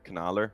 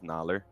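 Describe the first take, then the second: First: The name begins with a pronounced K sound. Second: The name begins without any K sound. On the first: "It depends whether the K was silent" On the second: "just Naller"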